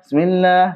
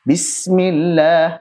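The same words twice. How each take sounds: First: The vowels are rushed and cut short. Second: The vowels are given their full length. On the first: The speaker calls it wrong. "Ikhtilas itu ngegas, ya, mengurangi kadar yang seharusnya" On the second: The speaker calls it right. "harusnya bismillah"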